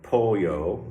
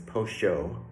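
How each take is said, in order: First: The word is said with a Mexican Spanish accent. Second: The word is said with an Argentine Spanish accent. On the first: "which would be Mexican for chicken" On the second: "here in Argentina"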